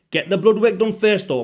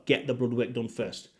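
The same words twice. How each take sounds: First: Louder, higher insistence on the blood work; emphatic warning. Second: Said in the usual way. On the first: Real, not acted. Urging viewers to test blood first, loud and emphatic. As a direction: hammer home the warning to viewers. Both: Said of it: "I'm always gonna emphasize that".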